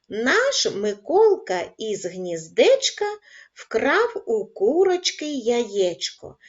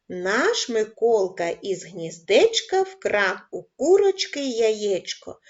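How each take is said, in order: First: The line is read at a calm, slow pace. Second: The line is read at a quicker pace. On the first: "Читаємо спокійно разом зі мною" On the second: "Пришвидшуємо темп"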